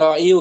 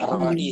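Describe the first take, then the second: First: The word ends with a final 'u' vowel. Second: The word ends without a final 'u' vowel. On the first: This is the original, heavy form. "Kan asalnya ra'iyu kan" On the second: The heavy final vowel is left unspoken. "Jadi dibaca ra'i saja"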